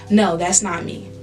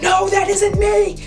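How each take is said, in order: First: It is said in a calm, steady way. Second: It is said in a worked-up, agitated way. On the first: The speaker calls it right. "you just say calmly" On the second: The speaker calls it wrong. "don't say it worked up"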